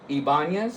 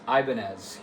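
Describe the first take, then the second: First: The name is said with its original pronunciation. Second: The name is said with an anglicized pronunciation. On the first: This is the name as the company first had it. "Ibanez is the original name" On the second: This is how people in America say it. "their name became anglicized in America. It's Ibanez here"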